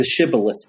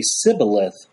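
First: "shibboleth" said with a clear SH at the start; "shibboleth" with a proper SH. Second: "Sibboleth" with a plain S in place of SH; "Sibboleth" the Ephraimite way, S not SH. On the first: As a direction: start "shibboleth" on a full SH sound, SHIB-bo-leth. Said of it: "could not pronounce the S H sound". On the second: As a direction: say "Sibboleth" with a hissed S, SIB-bo-leth. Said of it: "They could only pronounce the S sound". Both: Shown as a demonstration.

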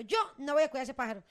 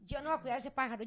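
First: "yo" punched out, then a brief break; retold refusal, stress on YO. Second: Said in the usual way. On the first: Wife quoting husband refusing bird care, stress on "yo". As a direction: hit "yo" hard, imitating a firm refusal. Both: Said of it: "Calé dijo".

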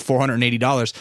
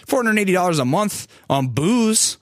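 First: Said in the usual way. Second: Four hundred eighty dollars pitched higher, stressed; emphatic repeat. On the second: Real, not acted. To viewers, stressing the booze bill, emphatic. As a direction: hit the sum hard in disbelief.

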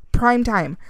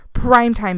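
First: Said in the usual way. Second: Louder emphatic repeat. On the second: Real, not acted. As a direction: say it again, louder and proud.

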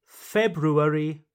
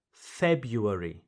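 First: February as FEB-roo-air-ee; both R's pronounced. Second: February as FEB-yoo-air-ee, falling; first R dropped. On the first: Teacher repeats first choice, February with both R's. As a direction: sound the R after the B in February. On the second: Teacher repeats second choice, February without the first R. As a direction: glide through YOO in February. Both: Shown as a demonstration. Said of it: "So you can say".

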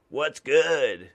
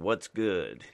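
First: Punchy, louder "What's good?"; bold greeting. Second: Said in the usual way. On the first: Shown as a demonstration. Mailman tries a cool greeting on his route, louder. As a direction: sell "What's good?" with a loud swagger. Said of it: "I can't". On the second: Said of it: "you have to use that for the younger crowd".

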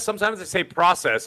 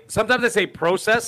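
First: "process" with an open AH, as PRAH-sess; short-o "process". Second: "process" with a long O, as in PRO. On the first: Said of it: "It depends on how I, it lands". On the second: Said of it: "Sometimes, you know what's funny?". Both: Shown as a demonstration.

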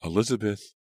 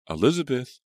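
First: Alarmed call. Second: Louder, higher alarmed shout. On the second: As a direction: call out in real alarm. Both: A narrator's reading. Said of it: "alarmed voices".

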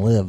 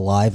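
First: 'live' with a short i, like 'give'; 'live' as in where you live; live as in give. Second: 'live' with a long i, like 'alive'; 'live' as in live music; live as in alive. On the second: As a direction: say 'live' to rhyme with 'five'. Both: Shown as a demonstration. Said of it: "spell live and live the same exact way".

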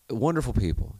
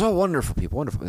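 First: Said in the usual way. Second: Put-on a loose, half-done Irish accent, opening high and loud on "Oh". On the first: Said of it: "No accent required". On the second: Older golfer praising Americans, in a half Irish accent. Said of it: "like a half Irish accent".

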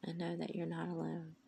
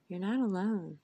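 First: Said in the usual way. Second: Louder, falling, hitting NOT; loud emphatic. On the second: Real, not acted. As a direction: proclaim it loudly to the listener. Loud repeated reassurance.

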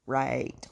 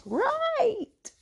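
First: Low, short "right"; dry doubtful "right". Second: Drawn-out, sky-high "right"; exaggerated sarcastic "right". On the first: Commenting on the just-friends claim, dryly. Sarcastic agreement, first take. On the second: Mocking the just-best-friends claim, very sarcastic. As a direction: stretch it way up high in mock agreement. Sarcastic agreement, second take. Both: Real, not acted.

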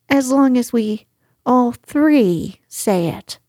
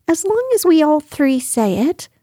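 First: "all three" set apart by pauses, falling finish; measured repeat, pause before "all three"; deliberate repeat. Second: High-pitched small creature voice, lifting at the end; high little voice, tentative rise; timid little figure. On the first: Piglet repeats the condition with emphasis. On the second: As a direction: say it high, with a rising finish. Piglet anxiously setting his condition. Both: Acted.

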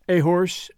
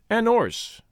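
First: Horse with its H, after "A"; H sounded. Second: 'orse with no H, linked to "an"; H dropped. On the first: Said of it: "instead of an A". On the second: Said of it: "used to drop the H". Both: A narrator's reading.

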